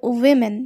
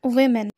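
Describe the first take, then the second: Both takes have the same delivery.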